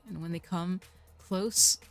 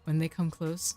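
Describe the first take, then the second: First: It has an odd, marked emphasis. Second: It is said plainly without odd emphasis.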